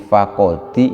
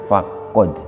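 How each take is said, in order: First: The word ends with an added 'i' vowel. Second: The word ends on a bare consonant. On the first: It is joined to the following word. "dihidupkan untuk disambung dengan lafadz setelahnya" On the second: It is the original form on its own. "aslinya adalah faqad"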